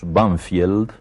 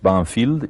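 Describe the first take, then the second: First: The name is said with local Spanish pronunciation. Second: The name is said with English pronunciation. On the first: This is how the locals say the name. "que nosotros pronunciamos Banfield" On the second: This is the name's original form. "pero que tiene un nombre inglés"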